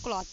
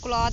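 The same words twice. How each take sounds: First: "क्लॉथ" said as klaath; th ending. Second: "क्लॉथ" said as klaad; voiced d ending. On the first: Teacher telling learners how other people say "क्लॉथ", unvoiced th ending. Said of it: "और कुछ लोग क्लॉथ". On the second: Teacher telling learners how some people say "क्लॉथ", voiced d ending. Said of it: "कुछ लोग क्लॉथ बोलते हैं". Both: Shown as a demonstration.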